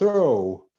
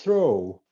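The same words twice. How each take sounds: First: The final gh is left silent. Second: The final gh is left silent.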